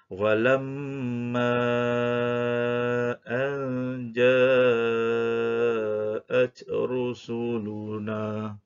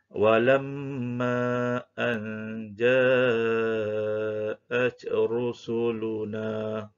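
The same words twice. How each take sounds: First: The long vowel is held for five counts. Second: The long vowel is held for two counts. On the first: "Sekiranya kita baca dengan kadar lima harakat" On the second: "kita mula baca dengan kadar dua harakat"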